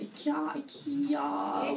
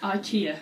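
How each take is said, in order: First: Ikea said slowly as "ee-KAY-ah"; drawn-out Swedish "ikea". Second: Ikea said as "eye-KEE-uh"; English "ikea", stress on the KEE. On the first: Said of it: "whatever you say". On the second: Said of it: "Or is it ikea". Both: Shown as a demonstration.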